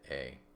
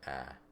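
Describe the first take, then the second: First: The vowel is a gliding 'ay' sound. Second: The vowel is an open 'ah' sound. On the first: "what a long A sounds like" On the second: "what does a short A sound like"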